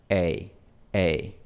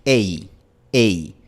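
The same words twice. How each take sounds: First: "Ei" a la inglesa, terminando más abierto, casi como la i de kit; diptongo inglés. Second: "Ei" fuerte, de e cerrando hasta una i bien cerrada; diptongo español. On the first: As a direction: suelta el "ei" inglés, sin cerrar del todo. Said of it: "pero termina en una posición diferente". ("ei" inglés, final abierto) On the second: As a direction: marca "ei" a la española, fuerte, terminando en i. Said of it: "Empezamos en la posición de la vocal e". ("ei" español, alto y cerrado) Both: Shown as a demonstration.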